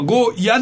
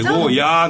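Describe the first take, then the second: First: The final vowel is cut short. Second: The final vowel is drawn out long. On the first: The speaker calls it wrong. "ゴーヤで切るんじゃなくて" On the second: The speaker calls it right. "ゴーヤーなんです"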